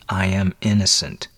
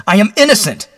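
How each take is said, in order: First: Understated, held-in insistence; mildly grated protest. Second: Loud, high cry of innocence; explosive high-pitched protest; bursting forth. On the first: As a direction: restrain it, through a tight jaw. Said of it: "he grated". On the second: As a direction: shout it out desperately. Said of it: "Then he burst forth". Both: Acted.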